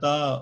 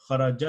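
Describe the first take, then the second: First: The word ends with an added a vowel. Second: The word ends on a stopped t sound. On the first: The letter is given a vowel instead of a stop. The speaker calls it wrong. "Because you're not saying" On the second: The letter has no vowel because you stop on it. The speaker calls it right. "Sakun means you come to a stop"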